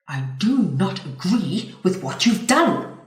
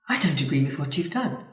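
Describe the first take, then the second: First: The voice sounds hostile and confrontational. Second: The voice sounds firm, calm and confident. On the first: The speaker calls it wrong. "Whoa, aggressive" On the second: The speaker calls it right. "which is what you'd call assertive"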